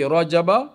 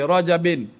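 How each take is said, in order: First: The word ends with an -a sound. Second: The word ends with an -in sound. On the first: It refers to this particular Rajab. "Habis tu kalau baca Rajabah" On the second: It refers to every Rajab, past, present and future. "Baca Rajabin boleh tak? Pun boleh"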